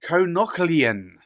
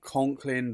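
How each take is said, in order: First: The name is said with more syllables, 'Konoklian'. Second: The name is said as two syllables, 'Conklin'. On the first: The speaker calls it right. "It's Konoklian" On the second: The speaker calls it wrong. "I always thought Conklin ... I have got it very wrong"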